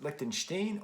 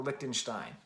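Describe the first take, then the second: First: "Lichtenstein" with the last syllable as "steen"; -steen pronunciation. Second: "Lichtenstein" with the last syllable as "stine"; -stine pronunciation. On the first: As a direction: end "Lichtenstein" on an EE sound before the N. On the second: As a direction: end "Lichtenstein" on an EYE sound before the N. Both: Shown as a demonstration. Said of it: "I don't know how you pronounce his last name".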